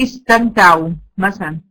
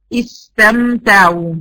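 First: Said in the usual way. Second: استمتعوا drawn out very slowly, each sound held; slow recitation. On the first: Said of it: "اقول مثلًا ايه؟". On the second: Shown as a demonstration. Teacher shows students the timing of each sound, very slowly. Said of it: "ونبين الفرق في النطق".

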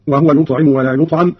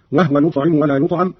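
First: Said in the usual way. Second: وهو said "wahwa", no vowel on the h; وهو in two syllables, wah-wa; silent-vowel ha. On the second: Shown as a demonstration. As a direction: close the h in وهو straight into w. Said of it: "بإسكان الهاء في هذه الضمائر".

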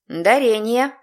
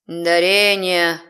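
First: Said in the usual way. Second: Slow drawn-out demon voice; thoughtful drawl. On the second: Acted. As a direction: stretch the word out, musing. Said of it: "задумчиво протянул страж грани".

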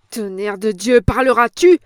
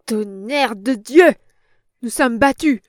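First: Louder, rising into a roar; an impatient, furious yell; furious shout. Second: Furious, loud outburst at losing; a big angry roar of defeat; enraged. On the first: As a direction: bark the question at her. Boss roars at old woman. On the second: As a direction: bellow it in rage. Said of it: "avec un indicible accent de rage". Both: A narrator's reading.

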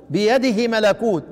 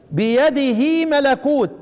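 First: بيده ملكوت with a quick, short هي; snatch the vowel of بيده; shortened vowel. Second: بيده ملكوت with the هي stretched, slow; prolonged vowel. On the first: Teacher contrasting بيده shortened against lengthened. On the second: Teacher contrasting بيده lengthened against shortened. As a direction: lengthen the vowel after بيده's هاء. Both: Shown as a demonstration. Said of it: "لاحظوا الفرق بين الاشباع".

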